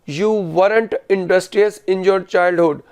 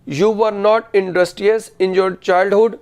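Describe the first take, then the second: First: Were not is contracted into one word. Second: Were not is said as two full words. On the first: This is the spoken style. "Spoken में वरंट बोला" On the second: This is the written style. "ये written English में।"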